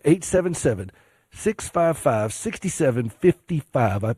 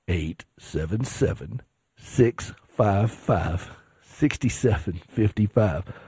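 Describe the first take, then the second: First: The number is read at a quicker pace. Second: The number is read at a slower pace. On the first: The speaker calls it wrong. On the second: The speaker calls it right.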